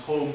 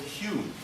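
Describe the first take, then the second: First: The vowel sounds like the one in 'home'. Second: The vowel sounds like the one in 'Hume'. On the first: This is how the English said the name. "everybody pronounced his name home" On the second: This is how the Scots say the name. "in Scotland you pronounce home Hume"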